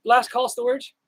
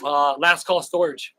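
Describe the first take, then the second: First: Higher, calling out the name. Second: Said in the usual way. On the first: Real, not acted. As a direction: call out to someone in the crowd. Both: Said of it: "Are you in here?".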